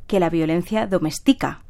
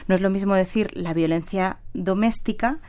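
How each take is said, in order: First: Domestica stressed on the third syllable, do-mes-TI-ca. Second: Doméstica with stress on the second syllable, do-MÉS-ti-ca. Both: Shown as a demonstration. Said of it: "la tilde sirve para diferenciar".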